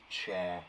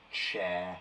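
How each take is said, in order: Both takes have the same delivery.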